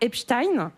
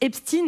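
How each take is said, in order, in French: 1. Le nom a une prononciation non américaine. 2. Le nom a la prononciation de l'anglais américain.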